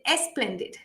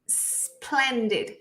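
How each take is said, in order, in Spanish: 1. Empieza con un sonido de vocal e agregado. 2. Empieza directamente con el sonido de la s. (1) "tendemos a agregar como una E" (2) "tenemos que pronunciar con el sonido de la S"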